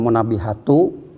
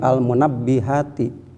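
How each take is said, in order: First: The word ends with an u vowel. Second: The word ends with an i vowel. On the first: The speaker calls it wrong. "dibacanya jangan munabbihatu" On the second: The speaker calls it right. "tetapi al munabbihati"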